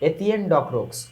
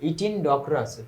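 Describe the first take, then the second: First: The first name is said as three syllables, eh-tee-yen. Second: The first name is said as two syllables, ee-tin. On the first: It is the form found on checking the pronunciation. "ওইটা বাংলায় হয়ে যায় এতিয়েন" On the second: It is the anglicized form of the name. "ইথিনটা আসলে আমরা ইংরেজিতে বলি"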